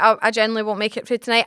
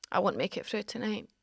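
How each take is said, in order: First: Insistent retort. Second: Very soft, melodramatic near-whisper; hammed-up dying hush; dramatic faint murmur. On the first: Retold or imitated. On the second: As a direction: fade out like someone on their deathbed. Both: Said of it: "[name], you're being dramatic".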